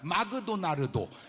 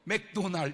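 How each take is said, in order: First: It is said with extra vowels between consonants. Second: It is said without extra vowels between consonants. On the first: The speaker calls it wrong. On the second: The speaker calls it right.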